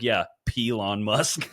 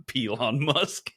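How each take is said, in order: First: "Pelon" with a punchy P. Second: "Pelon" slow with a hard P; Pelon pun. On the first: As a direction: say "Pelon" slowly with a stressed P. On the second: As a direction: savour "Pelon Musk" slowly. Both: Shown as a demonstration. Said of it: "adding P in front of things".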